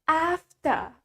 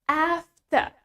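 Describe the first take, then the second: No difference in how they are said.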